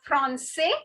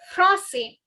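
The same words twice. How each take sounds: First: The first vowel is oral with a pronounced N. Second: The first vowel is nasal with no clear N. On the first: The speaker calls it wrong. "it's not français" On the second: The speaker calls it right. "This N has a nasal sound"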